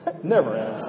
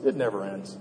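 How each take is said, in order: First: Chuckling. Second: Said in the usual way. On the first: Retold or imitated. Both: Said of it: "He laughs".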